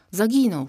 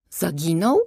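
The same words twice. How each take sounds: First: ZAGINĄŁ said as a falling statement; plain statement. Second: ZAGINĄŁ with a clear rise at the end; echoed question. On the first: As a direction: state "Zaginął" firmly, pitch dropping at the end. Statement of fact, later echoed as question. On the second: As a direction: ask "Zaginął" back, pitch climbing. Worried echo of the news as question. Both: A narrator's reading.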